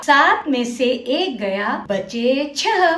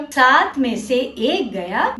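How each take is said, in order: First: सात में से एक गया said slowly, word by word; slow model sentence. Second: Said in the usual way. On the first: Shown as a demonstration. Teacher slowly models सात में से एक गया for children to repeat. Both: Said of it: "अब यह वाक्य दोहराओ".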